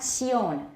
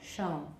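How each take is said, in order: First: The vowel is said with strongly rounded lips. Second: The vowel is said with lips more spread. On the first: The speaker calls it wrong. "Not shown. / don't round too much" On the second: The speaker calls it right. "Make your lips a little more spread"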